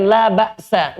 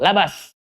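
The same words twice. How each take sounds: First: La ba'sa with a glottal stop after ba; la ba'sa in two clear parts, la then ba'sa; Arabic pronunciation. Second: Labas run together as one word, no glottal stop; labas, la and bas joined smoothly; Indonesian pronunciation. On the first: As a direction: say la ba'sa the Arabic way, with a break before the a. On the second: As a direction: say labas flat and fast, the Indonesian way. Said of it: "Orang Indonesia dibaca dengan langsung". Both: Shown as a demonstration.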